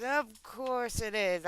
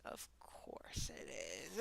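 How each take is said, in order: First: Slowly drawn out at normal volume; slow, fully voiced repeat. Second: Slow, hushed aside; very soft slow whisper. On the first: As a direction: stretch the words out aloud. Repeats the whispered aside aloud. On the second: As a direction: drag it out under the breath. Resigned aside, said twice. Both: Real, not acted.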